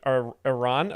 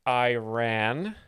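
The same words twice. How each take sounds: First: Iran is pronounced the ordinary, standard way. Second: Iran is pronounced in a mocking, put-on way.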